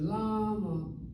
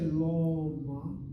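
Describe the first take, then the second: First: The first vowel sounds like 'a'. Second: The first vowel sounds like 'o'. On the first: The speaker calls it right. "I say lama" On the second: The speaker calls it wrong. "I don't say loma"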